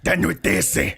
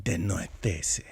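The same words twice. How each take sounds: First: Harsh mock German "De noitese", louder. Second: Soft, slow mock Spanish "De noitese". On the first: Showing cohost how German should sound, louder and harsh. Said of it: "But it's German, so you gotta be like". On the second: Mocking cohost's Spanish-sounding pronunciation, soft and slow. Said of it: "if that was Spanish".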